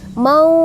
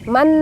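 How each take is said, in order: First: The final nasal is hidden, blurring toward f. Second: The final n is a clear, full n. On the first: The speaker calls it right. "harus membaca samar ke huruf fa" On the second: The speaker calls it wrong. "yang sering dibaca itu man"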